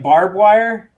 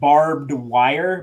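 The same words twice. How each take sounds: First: It is said the Texas way, like bob wire. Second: It is said the standard way, barbed wire.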